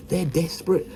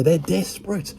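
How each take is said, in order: First: Said in the usual way. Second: Pitched way up, mocking; high mocking tone. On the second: Shown as a demonstration. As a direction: squeak it out, mocking.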